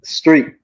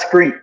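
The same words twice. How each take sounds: First: The word begins with an st sound. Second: The word begins with an sk sound. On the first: The speaker calls it right. "It's street with a T" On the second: The speaker calls it wrong. "not a K or a C. Not street"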